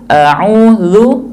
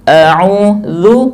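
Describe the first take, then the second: No difference in how they are said.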